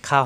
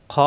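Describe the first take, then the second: First: "খা" with a plain open aa; light "খা" instead of rounded khaw; wrong open vowel. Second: "খ" long, with a dark aw vowel; throaty kh without an open a on "খ"; full-mouthed "খ"; rounded heavy kh. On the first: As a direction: spread the vowel of "খা" thin and light. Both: Shown as a demonstration. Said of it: "খা হবে না".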